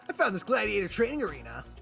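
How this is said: The voice is bright and energetic. "he's doing a Sonic impression"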